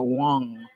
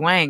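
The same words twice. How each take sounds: First: The vowel sounds like an O. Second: The vowel does not sound like an O. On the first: The speaker calls it right. "She told me to say it as though there's an O there" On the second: The speaker calls it wrong. "naturally, to you, the audience, I wanted to say Wang"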